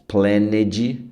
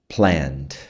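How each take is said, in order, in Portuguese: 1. A terminação -ed é pronunciada como uma sílaba extra. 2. A terminação -ed não acrescenta sílaba extra.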